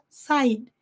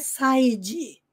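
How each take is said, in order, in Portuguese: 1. Termina num D suave, sem vogal. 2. Termina com uma vogal extra depois do D. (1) "termina com o som do D bem sutil na ponta da língua" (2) "side não é side"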